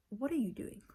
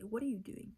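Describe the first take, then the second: First: Louder, dead serious question; firm confrontation. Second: Said in the usual way. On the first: Retold or imitated. Daughter confronting her parents, louder and firm. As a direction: stare them down and ask it. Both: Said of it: "that's all I say".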